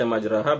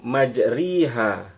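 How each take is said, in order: First: The vowel after the r is an open a. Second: The vowel after the r is a close i. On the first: "berarti ra-nya fathah ya" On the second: "majriha ra-nya kasrah"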